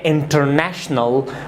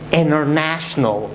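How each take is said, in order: First: The T after the N is clearly pronounced. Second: The T after the N is silent. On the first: The speaker calls it wrong. "Do not say international" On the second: The speaker calls it right. "but say international"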